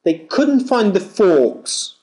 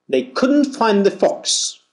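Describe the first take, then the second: First: "forks" with a long aw vowel, r silent. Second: "fox" with a short rounded British o, no r. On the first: Teacher contrasting "forks" with fox for students, long aw vowel. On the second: Teacher contrasting "fox" with forks for students, short open o. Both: Shown as a demonstration. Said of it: "Feel the difference".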